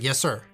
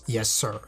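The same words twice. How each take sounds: First: It sounds casual, like routine replying. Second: It sounds grave, scary and reluctant.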